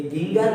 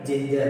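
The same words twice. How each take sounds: First: गिंगर with hard g sounds; the mistaken hard g take of गिंगर; wrong hard g. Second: जिंजर with soft j sounds; the correct soft j take of जिंजर. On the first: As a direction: say गिंगर with both g's hard, as in go. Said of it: "ये गिंगर नहीं है". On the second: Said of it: "बल्कि जिंजर है". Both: Shown as a demonstration.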